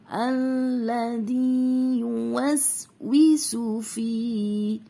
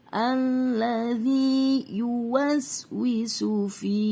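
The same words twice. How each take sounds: No difference in how they are said.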